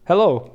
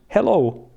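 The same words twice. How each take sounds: First: It is said in an English accent. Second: It is said in a Finnish accent. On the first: "this is English" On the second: "and this is Finnish"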